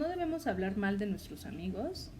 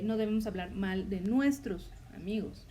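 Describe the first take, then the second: First: The word hablar carries the emphasis. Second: The word nuestros carries the emphasis. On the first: Harming them in deeds is allowed. "hacemos énfasis en la palabra hablar" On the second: Speaking ill of enemies is allowed. "ahí el énfasis está en la palabra nuestros"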